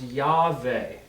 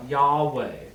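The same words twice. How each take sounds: First: "Yahweh" said yah-VAY, with a V sound. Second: "Yahweh" said YAH-way, with a W sound; ancient-style w in "Yahweh", as yah-way. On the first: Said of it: "it would be pronounced Yahweh". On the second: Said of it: "the letter Vav was a W". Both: Shown as a demonstration.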